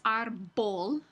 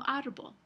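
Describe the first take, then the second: First: Árbol said with a plosive b, lips fully closed; árbol with a hard occlusive b; hard stopped b. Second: Árbol said with a soft b, lips barely touching; árbol with a gentle fricative b. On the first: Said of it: "no es árbol". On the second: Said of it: "Es una B más suave". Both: Shown as a demonstration.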